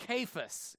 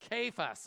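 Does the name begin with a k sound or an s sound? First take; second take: k sound; k sound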